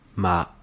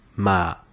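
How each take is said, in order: Both takes have the same delivery.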